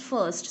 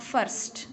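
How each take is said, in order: First: First without the R, "fust"; first with a silent R. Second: First with the R sounded, slow; first said wrongly with a clear R; wrong rhotic first. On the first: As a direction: say first dropping the R. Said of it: "It's first". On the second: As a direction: roll the R in first to show the error. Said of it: "It's not first". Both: Shown as a demonstration.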